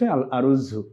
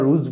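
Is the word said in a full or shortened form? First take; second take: full; shortened. First: The word is long, with the article attached. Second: The word is a short single syllable. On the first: This is the pure standard form. "বিশুদ্ধ শব্দটি হচ্ছে আল আরুজ্জু" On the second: This is the everyday spoken form. "কথ্য ভাষায় আমরা রুজ বলে থাকি"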